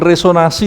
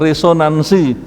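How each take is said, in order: First: The n sound before the s is dropped. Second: The n sound before the s is present. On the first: The speaker calls it wrong. "bukan resonasi loh ya" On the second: The speaker calls it right.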